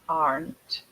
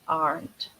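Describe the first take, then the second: The two takes are said the same way.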